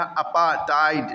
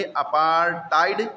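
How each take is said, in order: First: अपार्थाइड without the R, apaa-taid; अपार्थाइड with long aa straight into hard T; R dropped. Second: अपार्थाइड with an R and hard T, apaar-taid; अपार्थाइड drawn out, R before unaspirated T; R sounded. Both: Shown as a demonstration. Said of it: "अपार्थाइड नहीं पढ़ते हैं".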